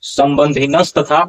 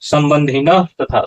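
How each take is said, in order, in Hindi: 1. 'tatha' से पहले एक 's' ध्वनि जोड़ी जाती है। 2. 'tatha' से पहले कोई 's' ध्वनि नहीं आती। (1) "उच्चारण नहीं होगा" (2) "यहाँ उच्चारण होगा"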